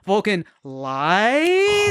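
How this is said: The voice rises at the end like a question. It is a question. The speaker calls it right. "You hear the question mark at the end?"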